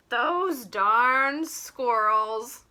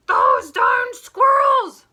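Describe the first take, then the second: First: Very slow, fond and affectionate. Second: Much higher, louder, slow furious yell; angry shout. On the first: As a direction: say it like a grump who secretly loves them. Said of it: "he said fondly". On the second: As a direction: bellow it like a grump who lost his pie. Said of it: "shouted Fookwire". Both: Acted.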